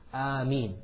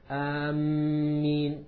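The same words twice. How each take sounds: First: The m sound is single and short. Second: The m sound is doubled and held. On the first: The speaker calls it right. "the meem has a pure kasra" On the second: The speaker calls it wrong. "they put a shadda on the meem"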